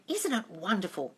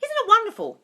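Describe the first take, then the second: First: Quiet, softer first take of "Isn't it wonderful?"; soft murmured affirmation. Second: "Isn't it wonderful?" sung out much higher and louder; gushing delight. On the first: Showing viewers the affirmation, first said quietly. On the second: Showing viewers the affirmation, second take gushing high. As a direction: exclaim "Isn't it wonderful?" in high rapturous glee. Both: Shown as a demonstration. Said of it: "You just keep saying".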